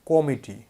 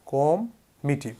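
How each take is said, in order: First: Said in the usual way. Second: কম মিটি said slowly, split in two; teacher slowly splits committee into কম মিটি; slow split syllables. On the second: Shown as a demonstration. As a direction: break কম মিটি apart slowly as a memory trick. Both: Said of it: "একটা জিনিস খেয়াল করুন তো".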